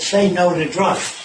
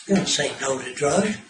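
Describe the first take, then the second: First: Slow, sneering quote of the slogan; mocking slogan. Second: Said in the usual way. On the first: Lecturer mocking an anti-drug slogan, slow and scornful. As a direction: drag it out to mock it. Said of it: "some asshole said". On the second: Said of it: "that doesn't stop anything".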